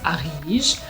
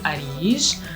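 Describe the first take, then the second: First: The r sound is rolled. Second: The r sound is not rolled.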